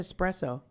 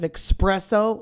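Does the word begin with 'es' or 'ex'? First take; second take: es; ex. First: The word begins with an 's' sound, no 'k'. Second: The word begins with a 'ks' sound, like 'express'. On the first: The speaker calls it right. "You said it right" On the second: The speaker calls it wrong. "people say it the wrong way"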